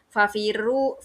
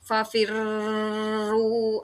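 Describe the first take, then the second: First: The r is said single, not doubled. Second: The doubled r is held long. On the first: "kalau misalnya musyaddadnya tidak dibunyikan" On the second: "Tidak fafirru, ah, itu kurang tepat ya, salah ya"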